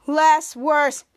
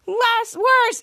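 First: Said in the usual way. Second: High-pitched chanted reply; louder team response. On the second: Retold or imitated. Kids answering Henry's call, louder chant. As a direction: answer the coach with raised voice.

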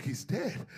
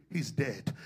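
First: "He's dead" rising into a soft question; questioning disbelief. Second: "He's dead" low and falling, a flat statement; said plainly. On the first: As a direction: ask "He's dead" with pitch lifting at the end. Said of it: "They was like". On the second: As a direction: state "He's dead" softly as a settled fact. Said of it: "had to say it plainly". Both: Retold or imitated.

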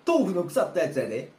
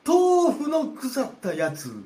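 First: Said in the usual way. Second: 豆腐の腐ったやつ drawn out slowly, much higher and louder; high, slow, loud astonished repeat; shocked disbelief. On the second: Acted. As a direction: echo it back, aghast and slow.

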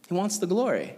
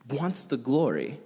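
First: Glory lifted higher with a falling close; stress on glory. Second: Said in the usual way. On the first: Shown as a demonstration. Repeating the point to the youth group, glory stressed. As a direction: lean into glory.

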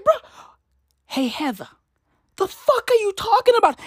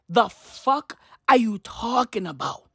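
First: High-pitched, indignant challenge; mock outrage. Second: Said in the usual way. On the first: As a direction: confront her in exasperated disbelief. Mock confrontation of the writer.

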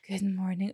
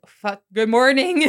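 First: Low, softer morning greeting; imagined first words on waking, said low. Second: Sudden loud, drawn-out correction; mock panic, then a louder put-on good morning; caught-out greeting. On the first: Pretend. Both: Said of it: "waking up next to him and being like".

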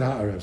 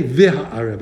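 First: "ha'arev" said with no v- sound at the start; without the vav. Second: "v'ha'arev" said with the v- sound at the start; with the vav. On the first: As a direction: drop the vav and just say "ha'arev". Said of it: "I said". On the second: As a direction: say "v'ha'arev", the vav clearly at the front. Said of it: "and I didn't say". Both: Shown as a demonstration.

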